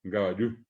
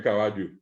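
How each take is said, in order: First: "caballú" as ca-ba-LLÚ, rising; Guaraní final stress. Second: "caballo" as ca-BA-llo, falling; Spanish stress. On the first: Teacher giving the Guaraní form, final stress. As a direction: push the last syllable of "caballú". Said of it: "Cuando hablamos en guaraní". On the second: Teacher rejecting the Spanish form, middle stress. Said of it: "no es caballo". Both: Shown as a demonstration.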